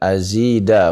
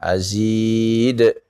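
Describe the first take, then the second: First: The word ends with a final vowel sound. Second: The word ends on a consonant, vowel dropped. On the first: The speaker calls it wrong. "Bukan azida" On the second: The speaker calls it right. "ketika berhenti azid"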